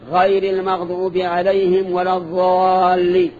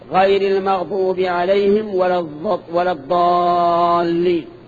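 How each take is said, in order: First: The key consonant is an emphatic th-like fricative. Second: The key consonant is an emphatic stop, like d. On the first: It sounds like a word meaning those who remain, changing the meaning. The speaker calls it wrong. "خطأ" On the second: It means those who went astray. The speaker calls it right. "صواب"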